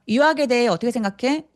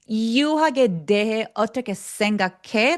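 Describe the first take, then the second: First: Consonants are light and quick, lips part fast. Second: Consonants are heavy and sticky, like an English speaker. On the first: "이건 너무 빨리빨리 날아가요" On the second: "끈적거리는 습관이 남아서"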